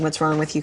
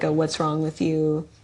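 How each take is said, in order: First: It is said with concern about injuries. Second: It is said in a flirting, teasing way.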